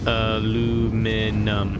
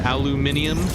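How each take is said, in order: First: It has four syllables, with no extra vowel. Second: It has five syllables, with an extra vowel sound. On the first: "It's just aluminum" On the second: "That's what the Brits say"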